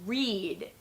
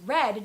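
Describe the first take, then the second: First: The vowel is a long ee sound. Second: The vowel is a short eh sound. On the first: The action happens in the present. "in the present tense, we want to say, I read. So the sound is E" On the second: The action happened in the past. "It's red, just like the color red"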